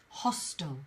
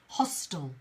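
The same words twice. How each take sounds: First: The last syllable is reduced to a short 'tl'. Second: The same.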